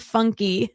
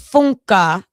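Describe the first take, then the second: First: The name ends with an 'ee' sound. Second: The name ends with an 'ah' sound. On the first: The speaker calls it wrong. "you don't say Bethany's name funky" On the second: The speaker calls it right. "It's Funka"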